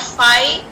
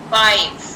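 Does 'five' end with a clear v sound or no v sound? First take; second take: no v; clear v. First: The word ends without a clear v sound. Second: The word ends with a clear v sound. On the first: The speaker calls it wrong. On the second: The speaker calls it right. "Make sure you pronounce the v sound"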